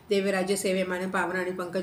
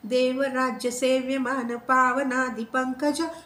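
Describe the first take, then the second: First: It is recited quickly and hurriedly. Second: It is recited slowly and clearly. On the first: The speaker calls it wrong. "खूप जण घाईनी वाचतात" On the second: The speaker calls it right. "तुम्ही छानपैकी बोला ना"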